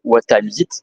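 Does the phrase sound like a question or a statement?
statement. It is said with a flat statement intonation. It is a plain sentence, not a question. "it is a sentence. It is not a question"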